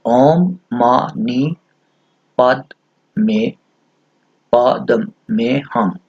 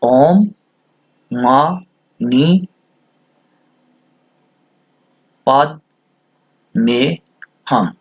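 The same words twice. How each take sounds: First: Each syllable drawn out slowly; chanting the Sanskrit mantra slowly; slow mantra recitation. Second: Long pauses between ओम, मा, नी, पद, में, हम; ओम मा नी पद में हम split with a pause after each syllable. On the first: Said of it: "छह syllable हैं इस मंत्र के". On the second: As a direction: count out each syllable separately. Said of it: "छह syllables". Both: Shown as a demonstration.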